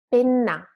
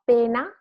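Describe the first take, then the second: First: Penna with a long, strong N; double N. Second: Pena with a short, light N; long E, brief N in pena; single N. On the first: Teacher contrasts words for students, penna with held NN. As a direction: lean on and hold the NN in penna. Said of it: "just longer and a bit stronger". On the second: Teacher contrasts words for students, pena with one N. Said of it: "one N". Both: Shown as a demonstration.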